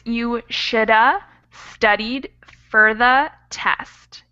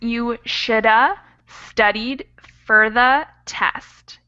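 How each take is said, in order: First: "Should have" is reduced to "shoulda" with schwa. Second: "Should have" is reduced to "shoulda" with schwa.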